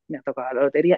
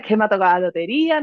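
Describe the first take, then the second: First: The voice sounds flat and downcast. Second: The voice sounds cheerful and lively. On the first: The tone does not match the good news. The speaker calls it wrong. "la segunda vez ... no acompaño el mensaje con cómo digo ese mensaje" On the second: The tone matches the good news. The speaker calls it right. "la primera vez que te he puesto este ejemplo"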